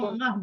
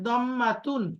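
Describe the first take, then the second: First: The word ends with a short 'h' sound. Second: The word ends with a full 'tun' ending. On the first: "দম্মাতুনকে যখন আমরা অক্ফ করে বলি" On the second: "দম্মাতুন শব্দটা কি?"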